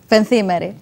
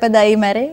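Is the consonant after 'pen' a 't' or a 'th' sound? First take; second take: th; t. First: The consonant after 'pen' is a 'th' sound. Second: The consonant after 'pen' is a plain 't'. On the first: The speaker calls it right. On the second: The speaker calls it wrong.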